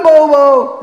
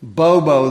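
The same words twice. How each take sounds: First: Bobo! called out much higher and much louder, falling at the end; Bobo! hollered to wake the lazy horse. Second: Said in the usual way. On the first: Retold or imitated. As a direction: yell Bobo! across the yard. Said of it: "until I holler at him and go". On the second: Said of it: "until I holler at him".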